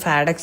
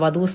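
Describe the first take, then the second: First: The name begins with an F sound. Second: The name begins with a V sound. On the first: The speaker calls it right. "ഫാഡക്സ് എന്നാണ് കേട്ടോ" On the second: The speaker calls it wrong. "വധൂസ് എന്നല്ല കറക്റ്റ് പറയേണ്ടത്"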